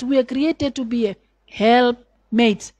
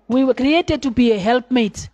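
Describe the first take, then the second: First: Helpmate drawn out slowly; slow, deliberate preaching emphasis; slow emphatic phrase. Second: Said in the usual way. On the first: Shown as a demonstration. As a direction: lean on each word of the phrase. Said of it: "repeats phrase slowly for emphasis". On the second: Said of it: "repeats phrase at normal pace".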